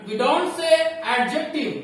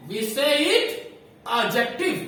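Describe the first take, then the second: First: "adjective" said with a voiced D, the wrong way; wrong pronunciation. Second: "adjective" said without the D sound, ad-jektiv; right pronunciation. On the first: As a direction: show the wrong way slowly. ("adjective" गलत उच्चारण) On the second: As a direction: give the correct form as a teacher. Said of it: "What do we say?". ("adjective" सही उच्चारण) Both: Shown as a demonstration.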